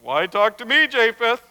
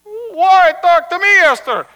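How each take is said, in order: First: Said in the usual way. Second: Loud protest. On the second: Acted. Rabbi answering his angry wife, protesting loudly.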